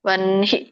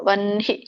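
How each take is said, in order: No difference in how they are said.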